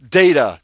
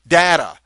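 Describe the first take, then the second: First: "data" said DAY-ta, punched loud; loud, emphatic DAY-ta for "data"; long-A data. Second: "data" said DAT-a, punched loud; loud, emphatic DAT-a for "data"; short-A data. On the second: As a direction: say "data" with a flat a as in cat. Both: Shown as a demonstration. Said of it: "You can say it either way".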